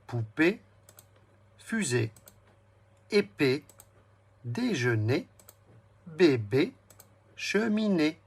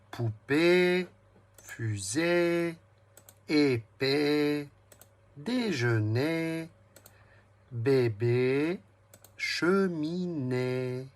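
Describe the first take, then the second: First: Said in the usual way. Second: Each word slow, its last "é" stretched long on a steady note; final é held. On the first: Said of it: "Je vais le redire". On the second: Shown as a demonstration. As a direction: draw out the é ending of "Poupée", "fusée", "épée", "déjeuner", "bébé", "cheminée". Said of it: "Quel bruit entends-tu dans tous ces mots". (le « é » final de chaque mot, de « Poupée » à « cheminée », longuement tenu)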